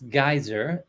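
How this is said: The word is said the American way. "in American English it's geyser"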